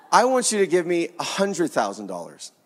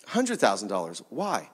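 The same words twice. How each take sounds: First: Said in the usual way. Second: Lower, softer, taken aback; low stunned echo of "hundred thousand"; disbelieving echo. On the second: Retold or imitated. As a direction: repeat "a hundred thousand dollars" as if stunned by the sum. Father echoes request in disbelief.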